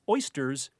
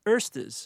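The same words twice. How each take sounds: First: The first vowel sounds like 'oy'. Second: The first vowel sounds like 'er'.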